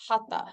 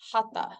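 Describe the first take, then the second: First: The middle consonant is a sharp aspirated t. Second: The middle consonant is a sharp aspirated t.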